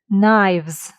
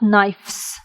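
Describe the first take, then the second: First: A v sound comes before the final s. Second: An f sound comes before the final s. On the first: The speaker calls it right. "change letter F into V" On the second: The speaker calls it wrong. "not knives. It's even hard to pronounce it"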